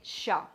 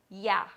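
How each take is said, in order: First: The word starts with an Argentine sh-like sound. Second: The word starts with the most widespread Y sound. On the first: "in Argentina, they say sha" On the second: "the most common pronunciation of the word would be ya"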